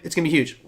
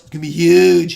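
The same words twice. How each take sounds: First: It is said in the speaker's natural voice. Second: It is said in a put-on impression voice.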